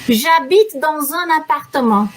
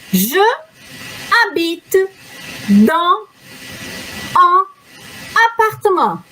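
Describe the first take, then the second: First: The words flow together without breaks. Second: Each word is said separately with breaks.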